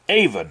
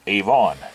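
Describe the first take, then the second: First: Avon is said the way locals say it. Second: Avon is said the way Americans say it. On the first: This is how people living there today say it. "the people who live in that area now pronounce it Avon" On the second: This is how it was said long ago. "most uh, people in America would probably see that word and pronounce it Avon"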